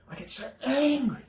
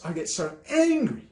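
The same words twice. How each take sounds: First: Much higher, strained, softer; strained exasperation. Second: Said in the usual way. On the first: Real, not acted. Venting his real anger to viewers, strained and much higher. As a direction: let the anger squeeze the voice up high.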